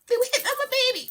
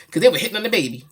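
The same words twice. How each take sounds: First: Very high, rapid squeaky protest; mock alarm. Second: Said in the usual way. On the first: Parent retelling baby being hit on, high rapid mock alarm. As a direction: rush it out in a comic squeal.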